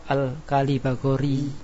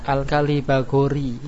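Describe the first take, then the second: No difference in how they are said.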